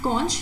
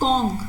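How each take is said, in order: First: The word ends with a ch sound. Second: The word ends with a k sound. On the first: The speaker calls it wrong. "you don't pronounce it conch" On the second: The speaker calls it right. "you pronounce it conch. C O N K"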